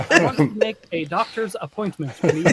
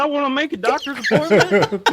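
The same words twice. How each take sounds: First: Put-on careful standard American accent; Southern accent switched off. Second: Put-on high, loud Southern accent. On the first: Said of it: "turn that off there for you". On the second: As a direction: play up a Southern twang on the phone. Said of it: "with the Southern accent".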